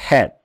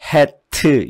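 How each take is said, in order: First: The word ends softly on a weak consonant. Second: The word ends with an added 'eu' vowel. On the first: The speaker calls it right. "이렇게 끄트머리 소리를 약하게 만드는 연습을 하세요" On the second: The speaker calls it wrong. "끝에다가 으자를 집어넣어가지고 hat 이렇게 하면 안 됩니다"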